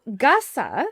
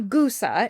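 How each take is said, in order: First: "Gussa" slowly, first vowel as in "gus"; pronunciation demo. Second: "Gusa" slowly, first vowel a long oo; wrong pronunciation. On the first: Host teaching the acronym, careful "Gussa" with short u. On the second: Host showing what to avoid, "Gusa" with an oo. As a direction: say "Gusa" like "goose-a". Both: Shown as a demonstration. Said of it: "not Gusa".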